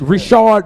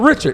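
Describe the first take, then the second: First: It sounds different from the ordinary English name. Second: It sounds like the ordinary English name Richard. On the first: The speaker calls it right. "It's Richard Mille" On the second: The speaker calls it wrong. "it's not even Richard"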